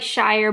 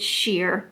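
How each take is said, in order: First: The word rhymes with 'fire'. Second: The word rhymes with 'here'. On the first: The speaker calls it wrong. "it looks like Shire" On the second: The speaker calls it right. "but it's sheer"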